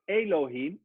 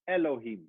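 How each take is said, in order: First: The first vowel is held long. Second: The first vowel is very short. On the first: The speaker calls it wrong. "So it's not Elohim" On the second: The speaker calls it right. "the very short e sound"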